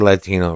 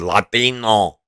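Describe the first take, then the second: First: It is said in a plain American accent. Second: It is said in a Spanish accent.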